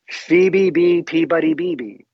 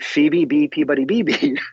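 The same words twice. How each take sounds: First: The name is said slowly. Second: The name is said quickly.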